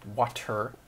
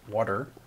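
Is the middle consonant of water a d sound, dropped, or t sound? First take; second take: t sound; d sound. First: The middle consonant is a clear t. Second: The middle consonant sounds like a soft d. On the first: The speaker calls it right. "the word is actually W A T E R" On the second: The speaker calls it wrong. "I say W A D E R"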